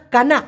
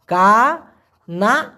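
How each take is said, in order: First: Said in the usual way. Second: কানা broken into long kaa, pause, naa; very slow pronunciation. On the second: Shown as a demonstration. Teacher breaks down কানা for learners, very slow syllables. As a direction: stretch each syllable of কানা separately. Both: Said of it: "উচ্চারণটা হবে কানা".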